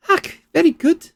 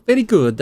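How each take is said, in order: First: "Ach, very good" in a high Scottish lilt, rolled "very"; a quick Scottish burr on "Ach, very good"; Scottish accent. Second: Said in the usual way. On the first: Acted. Researcher praising the argument, in a Scottish accent. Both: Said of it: "she's gone Scottish now".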